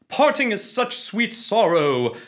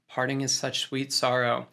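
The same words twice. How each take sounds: First: It is delivered big, loud and dramatic. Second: It is delivered quiet, small and restrained. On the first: It is pitched to reach a live theatre audience. "if they're performing on stage" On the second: It is pitched for a camera that picks up everything. "but if they're on film, you know, maybe it's just"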